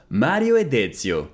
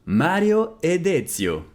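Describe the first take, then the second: First: Said in the usual way. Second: Slow, careful, clearly spaced words; slow model repeat. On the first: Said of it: "repeated model phrase". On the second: Shown as a demonstration. Teacher repeating Italian for students, slow and careful. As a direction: say it slowly for learners to copy. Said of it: "slow repeat of model".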